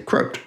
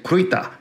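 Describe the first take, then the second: First: The word is pronounced in an English style. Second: The word is pronounced in a German style. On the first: "When I speak with my English-speaking friends, they all say crote" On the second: "my German friends, who probably say it a little bit more correctly than others, will say kruita"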